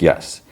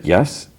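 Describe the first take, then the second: First: "Yes." level and settled, as an answer; affirming YES. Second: "Yes?" lifted upward as a question. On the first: She answers him as they lie down, affirming "Yes.". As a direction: confirm "Yes." without any upward lift. Lovers check consent, her answer. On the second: He checks with her as they lie down, questioning "Yes?". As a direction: ask "Yes?" with a rising end. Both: Retold or imitated.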